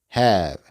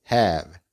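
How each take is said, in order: No difference in how they are said.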